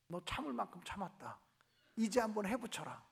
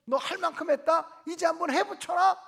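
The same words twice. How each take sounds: First: Low, soft inner voice of God; a hushed lower divine whisper, teasing the idea; mock voice of God granting revenge; imagined God's voice. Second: Rile her up to hit back; a friend loudly urging revenge; egging on. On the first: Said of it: "하나님께서 내 마음에 음성". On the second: Retold or imitated. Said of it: "똑같은 상황을 물으면".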